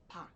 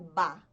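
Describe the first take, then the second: First: The syllable starts with a sound between B and P. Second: The syllable starts with a voiced B sound. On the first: The speaker calls it right. "é pá ... um meio termo entre B e P" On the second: The speaker calls it wrong. "não é ba"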